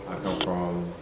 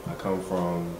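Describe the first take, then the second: No difference in how they are said.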